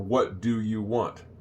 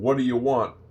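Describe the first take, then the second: First: Each word is said fully and separately. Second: The words are run together into a short form. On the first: "short for" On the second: "Is short for"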